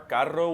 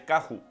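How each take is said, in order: First: The middle consonant is a rolled R. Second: The middle consonant is an H sound. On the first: "with a rolled R" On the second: "they'll say carro"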